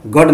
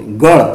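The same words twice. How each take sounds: First: गढ़ with a hard aspirated stop ḍh; wrong stop sound. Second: गढ़ with a flicked aspirated ṛh; correct flap. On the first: Teacher showing what not to say, गढ़ with hard ḍh. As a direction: say गढ़ wrongly as gaḍh, no flap. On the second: Teacher correcting a mistake, गढ़ with flapped ṛh. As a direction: say गढ़ as gaṛh, tongue flapping down. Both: Shown as a demonstration. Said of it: "गढ़ नहीं बोलते".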